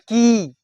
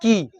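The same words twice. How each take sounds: First: The vowel is long and forceful. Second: The vowel is short and light. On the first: "दीर्घ में थोड़ा सा जोर से जोर देना पड़ता है" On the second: "अस्थिर से कहना है की"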